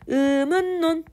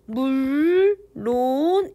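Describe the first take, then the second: First: The second syllable ends in an N sound. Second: The second syllable ends in an L sound. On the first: The speaker calls it right. "이렇게 해서 이런 비음화를 적용을 해준 게 발음이 맞거든요" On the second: The speaker calls it wrong. "의물론 이렇게 발음하는 사람들이 있는데 이거는 틀린 발음"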